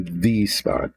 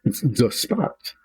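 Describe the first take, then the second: First: THE said as "thee" before spot; THE as "thee", not "thuh"; emphatic "thee". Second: THE said as "thuh" before spot; THE as "thuh", not "thee"; standard "thuh". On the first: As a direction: say THE with a long ee. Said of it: "as opposed to the spot". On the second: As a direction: say THE with an uh vowel, slowly. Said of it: "it's still the". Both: Shown as a demonstration.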